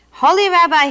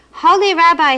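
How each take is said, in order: First: Wailing. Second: Crying out. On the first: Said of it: "he wailed". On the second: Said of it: "he cried". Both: A narrator's reading.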